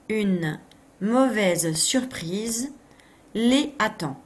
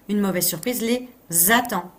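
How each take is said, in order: First: Les and attend are said without a linking z. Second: Les and attend are joined with a linking z. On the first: The speaker calls it wrong. "où j'aurais pu faire la liaison?" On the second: The speaker calls it right. "Il fallait faire la liaison ici"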